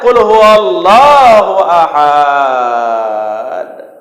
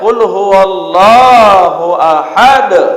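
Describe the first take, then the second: First: The last word is drawn out long. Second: The last word ends short with a stopped consonant. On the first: God is many. The speaker calls it wrong. "katakan ya Muhammad, Allah itu banyak" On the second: God is one. The speaker calls it right. "ini yang betul"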